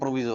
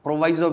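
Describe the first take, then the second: First: The second syllable has an 'ee' vowel. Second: The second syllable has an 'eye' vowel. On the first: This is the usual form. "तो वैसे प्रोविजो होता है" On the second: Some people say it this way. "कुछ लोग इसको सही से pronounce प्रोवाइजो भी प्रोनाउंस करते हैं"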